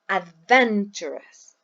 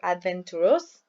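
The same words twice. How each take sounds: First: The stress is on the second syllable. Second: The stress is not on the second syllable. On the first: The speaker calls it right. "we say adventurous" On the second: The speaker calls it wrong. "or adventurous"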